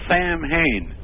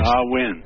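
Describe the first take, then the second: First: The middle has M and H, sam-hain. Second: The middle sounds like a W, sow-in. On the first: The speaker calls it wrong. "It looks like Sam Hain" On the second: The speaker calls it right. "that's the correct pronunciation of Halloween in Gaelic"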